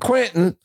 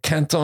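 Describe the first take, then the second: First: The name is said with a Midwestern American pronunciation. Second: The name is said with a French pronunciation. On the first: "Quentin is what the Middle Americans say" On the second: "Quinton is what the French say"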